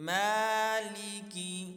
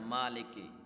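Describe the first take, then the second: First: The first vowel is drawn out long. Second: The first vowel is short. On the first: The speaker calls it right. "इसको खींच के पढ़ना है" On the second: The speaker calls it wrong. "इसको मा लेके नहीं पढ़ना"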